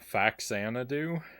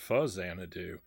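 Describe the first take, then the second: First: The X is said with a 'ks' sound. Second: The X is said with a 'z' sound. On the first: This is how most people say it. The speaker calls it wrong. "most people pronounce it" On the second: The name blends two words whose X sounds like Z. The speaker calls it right. "I think it should be pronounced"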